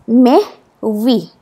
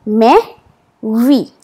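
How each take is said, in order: Both takes have the same delivery.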